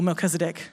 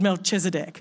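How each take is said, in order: First: The middle consonant is a hard 'k' sound. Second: The middle consonant is a soft 'ch' sound. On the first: "or kuh" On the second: "depending on if you like saying ch"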